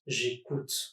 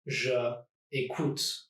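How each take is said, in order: First: The pronoun's vowel is dropped and joined on. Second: The pronoun keeps its own vowel before écoute. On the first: The speaker calls it right. "I'm going to contract" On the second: The speaker calls it wrong. "a subject and a verb like je écoute"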